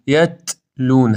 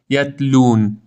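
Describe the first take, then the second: First: یتلون slow, the ta released with air; یتلون with a breathy ta; right. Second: یتلون with no air on the ta; یتلون with a closed ta; wrong. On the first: Teacher modelling the airy ta. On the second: Teacher showing the wrong closed ta. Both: Shown as a demonstration. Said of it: "هوا باید خارج بشه".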